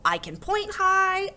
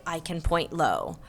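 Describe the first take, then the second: First: "high" leaps up and holds; high singsong. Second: "low" dropped down in pitch; low singsong. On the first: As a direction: chant it, shooting up on "high". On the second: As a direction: chant it, sinking on "low". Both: A narrator's reading. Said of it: "thinking about high and low and start to sing".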